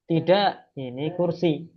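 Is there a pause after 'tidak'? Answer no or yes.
yes. There is a pause after the first word. The speaker calls it right. "intonasinya juga harus jelas"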